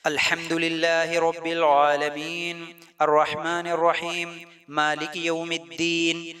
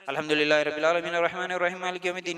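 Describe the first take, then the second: First: It is recited calmly with pauses between phrases. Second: It is recited quickly without pausing. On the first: The speaker calls it right. "सुकून से रुक रुक के ठहर ठहर के पढ़ना है" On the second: The speaker calls it wrong. "जल्दी जल्दी नहीं पढ़ना ... गलत तरीका, ऐसा नहीं पढ़ना"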